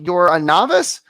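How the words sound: The voice rises at the end.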